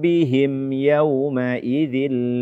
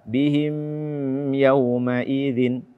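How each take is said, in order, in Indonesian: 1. Huruf m pada bihim dilepas dengan cepat. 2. Huruf m pada bihim ditahan lama.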